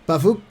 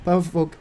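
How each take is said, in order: First: The last syllable has an 'u' vowel. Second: The last syllable has an 'o' vowel. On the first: The speaker calls it right. "call him Pavuk" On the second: The speaker calls it wrong. "instead of Pavok"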